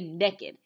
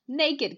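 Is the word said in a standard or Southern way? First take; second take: Southern; standard. First: It is said the Southern way, "nekkid". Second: It is said the standard way, "nay-kid".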